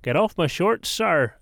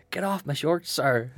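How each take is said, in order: First: Mock Belfast accent. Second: High mock yell at an opponent; playful retold shout. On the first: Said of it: "in your best possible accent". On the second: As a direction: shout it up high, half laughing. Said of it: "shouted at him".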